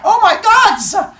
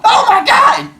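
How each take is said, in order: First: Very high, loud, slow OMG; a wailing scream; high drawn scream. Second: Very high, loud OMG scream; shocked scream. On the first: Teacher redoing the reaction to Athena, slower. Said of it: "Two different ahs". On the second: Teacher showing how you'd react to Athena. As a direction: scream in pure terror. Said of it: "it was not like". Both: Shown as a demonstration.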